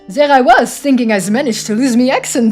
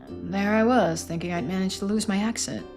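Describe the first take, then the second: First: It is said in an attempted French accent. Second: It is said in the speaker's own accent.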